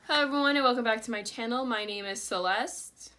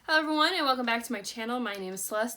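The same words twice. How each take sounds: First: It is said flatly, without enthusiasm. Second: It is said with lively enthusiasm.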